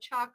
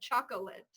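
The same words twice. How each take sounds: First: The word is said with two syllables. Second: The word is said with three syllables. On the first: The speaker calls it right. "where we drop syllables" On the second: The speaker calls it wrong. "I don't love chocolate"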